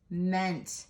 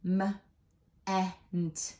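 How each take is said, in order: First: Said in the usual way. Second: "M, ent" in two separate pieces; "M" as a short "muh", pause, then "ent"; sounded out. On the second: Shown as a demonstration. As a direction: phonics breakdown of "M, ent". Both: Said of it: "What sound does M E N T make?".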